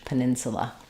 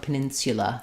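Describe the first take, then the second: First: The third syllable has a weak uh vowel. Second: The third syllable starts with an sh sound. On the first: "but American English" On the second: "or more of an sh"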